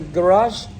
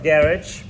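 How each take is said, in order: First: It is said with an American pronunciation. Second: It is said with a British pronunciation.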